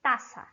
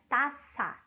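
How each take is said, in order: First: "taça" with a Portuguese reduced final a. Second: "taça" said as Spanish taza, s sound, open final a. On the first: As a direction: say "taça" the Brazilian way, weak final vowel. ("taça" à brasileira, a final reduzido) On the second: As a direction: say "taça" with a clear Spanish a at the end. ("taça" pronunciado à espanhola, com a final aberto) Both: Shown as a demonstration. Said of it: "se pronuncia dessa maneira".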